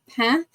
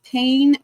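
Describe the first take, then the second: First: It is pronounced the French way. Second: It is pronounced like the English word. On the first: The French word for bread. The speaker calls it right. "if you pronounce it instead, ... but pain, that is bread in French" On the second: The English word for hurt. The speaker calls it wrong. "not pain"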